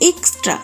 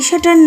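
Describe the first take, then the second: First: The word is said as 'extra' with 'ks'. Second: The word is said as 'esatar' without the 'ks'. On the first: The speaker calls it right. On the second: The speaker calls it wrong. "এটা এসাটার না"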